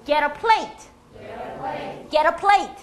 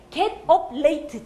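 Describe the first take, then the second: First: "get up late" run together as "gera-PLATE"; slow linked "ge-ra-PLATE"; linked, late stressed. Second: Slow "get... up... late"; word-by-word "get up late"; unlinked words. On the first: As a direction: soften the T of "get" and hit "plate". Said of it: "연음이 처리가 잘 되면". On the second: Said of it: "진짜 이렇게 많이 해요". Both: Shown as a demonstration.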